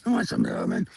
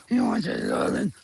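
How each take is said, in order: First: High whisper. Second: Much lower goofy growl of a question to the dog; deep silly voice. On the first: Vlogger cooing to her dog, high whisper. Talking to dogs, silly voice. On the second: Vlogger teasing her dog, deep goofy voice. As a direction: drop into a deep playful voice. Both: Real, not acted.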